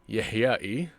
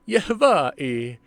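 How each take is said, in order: First: The middle consonant is a y sound. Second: The middle consonant is a v sound. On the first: This is the real family name. The speaker calls it right. "Instead of Y A H Y A E I" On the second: This is the name as the creator wrote it. The speaker calls it wrong. "he put a V"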